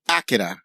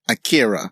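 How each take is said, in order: First: The name is said with a Japanese-style pronunciation. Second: The name is said with an Anglicized pronunciation. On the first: The speaker calls it right. "that's probably the more accurate Japanese pronunciation" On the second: The speaker calls it wrong. "for most of my life I've been saying it Akira"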